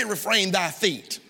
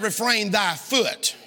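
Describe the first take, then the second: First: "feet" drawn out with a falling tune; slow "Refrain thy feet", dropping on "feet" as the wrong word; stress on FEET. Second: "foot" singled out, slow and deliberate; stress on FOOT. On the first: Preacher corrects a misreading for congregation, stress on FEET. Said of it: "It didn't say". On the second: Preacher gives congregation the true wording, stress on FOOT. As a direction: say "Refrain thy foot" slowly, landing firmly on "foot". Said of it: "It said". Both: Shown as a demonstration.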